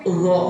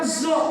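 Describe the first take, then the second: First: The first consonant has the tongue touching the teeth. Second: The first consonant is a plain z sound. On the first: The speaker calls it right. "tapi lo" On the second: The speaker calls it wrong. "Bukan zo"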